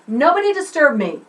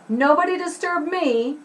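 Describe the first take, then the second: First: The voice falls at the end. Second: The voice rises at the end. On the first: "Took it down" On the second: "I think I just did that up"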